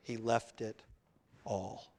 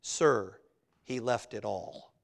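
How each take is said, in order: First: Low, hushed "He left it", a pause, then "all"; pause before "all". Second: Low, quiet, dry retort; understated sarcasm with a pause after Sir; somewhat sarcastic. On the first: Real, not acted. Preacher repeats the manager's answer, pausing before a quiet "all". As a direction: set "all" apart, very softly. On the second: Retold or imitated. Estate manager answers newspaperman about Rockefeller's fortune, somewhat sarcastic. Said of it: "very astutely and somewhat sarcastically says".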